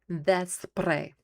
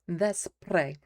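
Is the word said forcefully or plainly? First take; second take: forcefully; plainly. First: The word is said forcefully, with strong energy. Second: The word is said plainly, without extra force.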